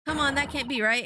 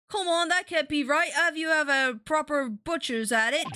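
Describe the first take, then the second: First: Said in the usual way. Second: Put-on Cockney accent. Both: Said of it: "I bet this is that one Cockney lady".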